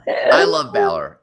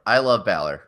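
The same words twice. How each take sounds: First: High, slow fangirl squeal; squealing fan. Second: Said in the usual way. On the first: Pretend. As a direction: swoon over the wrestler, slowly. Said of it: "I love Balor repeated differently". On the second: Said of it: "repeated plainly".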